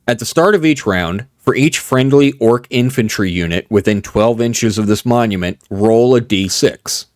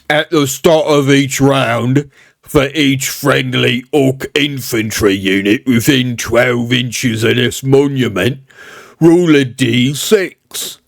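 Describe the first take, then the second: First: It is read in his normal voice. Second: It is read in a put-on orc voice.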